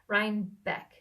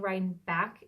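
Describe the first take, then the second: First: The last syllable sounds like 'beck'. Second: The last syllable sounds like 'back'. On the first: The speaker calls it right. "it's Beck" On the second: The speaker calls it wrong. "I keep saying ride back"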